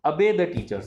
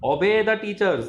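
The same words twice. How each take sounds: First: "obey" opened with a short uh, like "uh-bay"; teacher demonstrating "obey" as "uh-bay"; correct obey. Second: "Obey" with a full O, like "oh-bay", in a mock stern teacher tone; imitating the teacher's "oh-bay" for "Obey"; teacher's wrong obey. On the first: Shown as a demonstration. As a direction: model the right "obey": uh-bay, not oh-bay. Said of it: "वो अबे होता है". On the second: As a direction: scold like an old schoolteacher, saying "Obey" as "oh-bay". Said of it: "teachers बोलती थी ऐसे गुस्से वाले".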